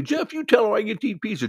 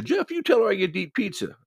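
First: High, loud ranting demand; going off on her. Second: Going off on her. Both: Retold or imitated. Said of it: "starts going off on her again".

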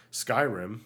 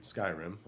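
First: "Skyrim" said louder with a rising tune; excited reveal. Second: Said in the usual way. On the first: Shown as a demonstration. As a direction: announce "Skyrim" with a bright upward lift. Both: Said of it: "Yes, that's right".

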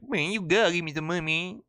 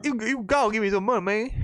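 First: Put-on higher, fast Southern-accent beggar. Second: Higher, pleading panhandler voice; begging homeless man. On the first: Streamer redoes the beggar in a Southern accent. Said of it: "maybe I could do a southern voice". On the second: Retold or imitated. Homeless man asking umbrella carriers for money, high pleading. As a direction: beg for money up in a raised put-on voice.

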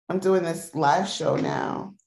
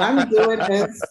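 First: Said in the usual way. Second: Slow, loud and higher through a laugh; giggly mock announcement; laughing showpiece. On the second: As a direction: ham it up while cracking up. Laughing, acting out the hand motions.

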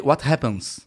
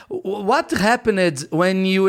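First: Lower, curt-sounding English correction; low-pitched interrupting correction; correcting someone. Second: Slow, halting attempt at English; hesitant, dragged-out English mistake; tense, fumbled English. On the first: Retold or imitated. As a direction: correct their grammar in a lower voice. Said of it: "ele fica me corrigindo". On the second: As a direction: stumble slowly through the English question. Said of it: "eu erro no inglês, porque eu tava tenso".

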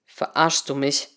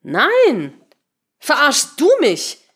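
First: Low, slow, earnest question; serious question. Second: High, loud, slow retort stressing "du"; indignant counter-question. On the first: Henry questioning his colleague, serious low question. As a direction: ask it gravely, without raising the voice. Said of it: "fragte Henry ernst". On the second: Patricia turning the accusation back, indignant retort. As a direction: throw the question back hard on "du". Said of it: "fragte sie zurück". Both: A narrator's reading.

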